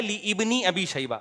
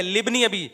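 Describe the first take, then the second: First: "لابن" broken into li + ibni, slowly; mock wrong correction. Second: "لابن" joined as LIB-ni; silent alif. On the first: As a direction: sound the alif in "لابن", saying "li-ibni". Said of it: "ابن ابی شیبہ نہیں ہے". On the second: Shown as a demonstration. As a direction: run "لابن" together as "libni", no alif sound. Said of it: "یہ الف silent ہے".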